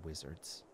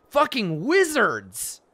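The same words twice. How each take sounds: First: "Wizards." said low and very soft; sour mutter. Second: Loud, high, slow disgust on "Fucking wizards"; disgusted outburst. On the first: Player sourly muttering about wizards, quiet. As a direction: grumble "Wizards." under the breath. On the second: Player cursing all wizards, loud disgust. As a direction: spit out "Fucking wizards" loudly and slowly. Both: Real, not acted.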